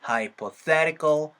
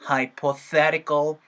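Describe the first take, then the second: No difference in how they are said.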